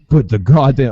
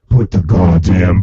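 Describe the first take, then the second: First: It is said in his normal voice. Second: It is said in a silly put-on voice.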